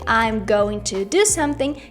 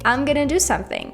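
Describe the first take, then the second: First: Every word is said fully as 'going to'. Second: 'Going to' is reduced to 'gonna'. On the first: "instead of saying I'm going to do something" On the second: "you can say I'm gonna do something"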